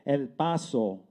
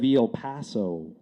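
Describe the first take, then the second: First: It is said with a Spanish accent. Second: It is said with an English accent.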